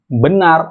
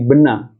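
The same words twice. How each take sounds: First: The final R sound is clearly pronounced. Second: The final R sound is dropped.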